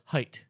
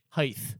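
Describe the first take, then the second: First: The word ends with a plain t sound. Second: The word ends with a th sound. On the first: The speaker calls it right. "So it's pronounced height" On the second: The speaker calls it wrong. "If you're from Texas, you apparently pronounce it with the T-H"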